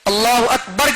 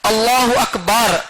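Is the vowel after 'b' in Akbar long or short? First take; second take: short; long. First: The vowel after 'b' is short. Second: The vowel after 'b' is drawn out long. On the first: God is the greatest. The speaker calls it right. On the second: It names a devil's child instead of greatness. The speaker calls it wrong.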